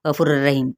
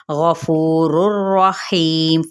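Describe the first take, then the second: First: गफूरुर रहीम gabbled fast and low, letters swallowed; wrong hurried recitation; rushed wrong reading. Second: गफूरुर रहीम read smoothly, every letter given its due; correct steady pace. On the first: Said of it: "ये भी गलत हो जाएगा". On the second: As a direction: recite गफूरुर रहीम evenly and slowly. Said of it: "फटाफट यानी पढ़ देना है". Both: Shown as a demonstration.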